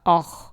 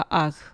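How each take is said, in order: First: The guttural sound is heavy and full. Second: The guttural sound is light and thin. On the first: "अगर मोटा पढ़ें यानी बारी आवाज़ निकालें" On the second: "अगर हम इसको बारीक पढ़ें"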